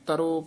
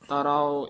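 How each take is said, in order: First: The word ends in a single short o sound. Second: The word ends in a long aa followed by o. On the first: The speaker calls it wrong. "ਇਸ ਤਰ੍ਹਾਂ ਨਹੀਂ ਬੋਲਣਾ" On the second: The speaker calls it right. "ਇਸ ਤਰ੍ਹਾਂ ਉਚਾਰਨ ਕਰਨੇ ਹੈ"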